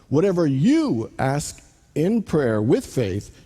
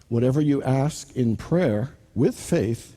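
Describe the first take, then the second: First: The word 'you' is strongly stressed. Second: The word 'you' carries no special stress.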